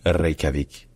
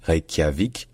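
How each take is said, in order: First: "Reykjavik" with rolled R and k made on the palate; palatalised k. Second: "Reykjavik" as rey-kya-vik, separate k and y; wrong palatal cluster. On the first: Teacher correcting to Icelandic, palatalised k. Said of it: "faites un que au niveau du palais". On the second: Teacher showing what not to say, separated k-y. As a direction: say "Reykjavik" with a plain k plus y. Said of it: "Donc ce n'est pas Reykjavik". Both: Shown as a demonstration.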